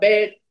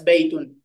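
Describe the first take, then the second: First: The word ends without the final vowel ending. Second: The final vowel and n ending are pronounced clearly. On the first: This is the casual everyday dialect. "lebih sering dibaca bait" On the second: This is the formal standard register. "harokat akhir dari kata tersebut ya harus dibaca secara jelas"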